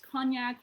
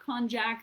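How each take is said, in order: First: It is said without a J sound. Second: It is said with a J sound. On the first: "you can pronounce this as cognac" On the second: "There is a sneaky little J in there"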